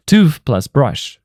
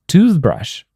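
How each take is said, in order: First: Slow, Tooth plus brush each word separate; nouns said apart. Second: Toothbrush with tooth stressed and falling; stress on first noun. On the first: Teacher shows learners the two nouns, said slowly apart. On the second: Teacher shows learners the compound, stress on tooth. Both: Shown as a demonstration. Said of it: "For example".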